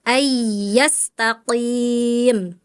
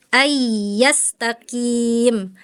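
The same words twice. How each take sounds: First: AYYASTAQIM with q at the tongue's root; correct back qaf. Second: AYYASTAQIM with a front k for q; qaf as kaf. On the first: Shown as a demonstration. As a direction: slowly set QIM far back in AYYASTAQIM. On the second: Retold or imitated. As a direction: slowly imitate the student's KIM in AYYASTAQIM. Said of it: "Tadi Farel gini".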